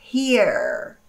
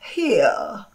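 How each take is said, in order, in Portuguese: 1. Termina com um som de r claramente pronunciado. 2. Termina sem um som de r pronunciado. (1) "o americano ele produz o som do R bem assim, olha" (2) "Se fosse o britânico, talvez ele dissesse"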